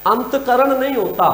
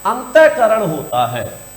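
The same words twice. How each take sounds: First: अंतकरण said antkaran, no visarga; wrong pronunciation. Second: अंतःकरण said antah-karan, visarga sounded; correct pronunciation. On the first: Teacher showing students the wrong form: अंतकरण with no visarga. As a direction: run अंतकरण together as ant-karan with no breath after ant. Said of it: "पहले वाले अशुद्धि". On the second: Teacher giving students the correct form: अंतःकरण with the visarga. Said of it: "दूसरे शुद्धि". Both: Shown as a demonstration.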